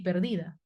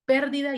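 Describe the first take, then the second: First: "perdida" stressed as per-DI-da; stress on middle syllable. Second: "pérdida" stressed as PÉR-di-da; stress on first syllable. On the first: Teacher contrasting two words, "perdida" stressed on DI. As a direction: lean on DI in "perdida". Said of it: "y la otra es grave". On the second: Teacher contrasting two words, "pérdida" stressed on PÉR. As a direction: hit the opening PÉR of "pérdida". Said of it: "Una es esdrújula". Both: Shown as a demonstration.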